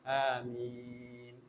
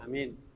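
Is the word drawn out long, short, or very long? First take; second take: long; short. First: The word is drawn out moderately long. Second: The word is said very short.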